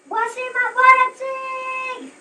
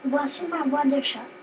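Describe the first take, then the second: First: It is shouted loudly. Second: It is said at normal volume.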